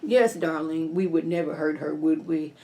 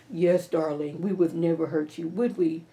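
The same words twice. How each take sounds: First: Lightly voiced smooth husband; Hunter voice. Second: Lower, softer mock-sweet man; lightly voiced smooth husband; Hunter voice. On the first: Hunter agreeing with Victoria, low and sweet. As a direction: lower mock-sweet man. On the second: Hunter backing Victoria up, low and sweet. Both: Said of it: "That's my Hunter voice".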